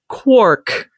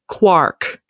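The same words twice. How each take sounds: First: The vowel sounds like the one in pork. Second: The vowel sounds like the one in park. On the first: This is how the word is pronounced. "It's pronounced quark" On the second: This is how the word is spelled. "but it's spelled quark"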